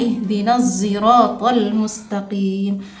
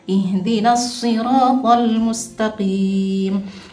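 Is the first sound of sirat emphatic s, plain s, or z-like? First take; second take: z-like; emphatic s. First: Sirat begins with an s blended toward z. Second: Sirat begins with an emphatic s sound. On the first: "membaca dengan ismam pada huruf za" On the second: "membaca dengan huruf shad"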